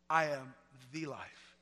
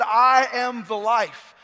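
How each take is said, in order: First: Soft and slow, words spaced; whisper-close, reverent; hushed quote. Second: Loud and very slow; booming proclamation. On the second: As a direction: ring it out across the room. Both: Acted.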